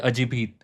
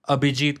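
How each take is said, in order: First: The name's consonant sounds are swapped around. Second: The name's sounds are in their usual order.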